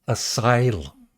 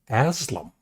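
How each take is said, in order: First: The word is said with its usual pronunciation. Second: The word is said in a garbled, shortened way. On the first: The speaker calls it right. "I know how to pronounce asylum. I said it properly" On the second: The speaker calls it wrong. "I said Aslam"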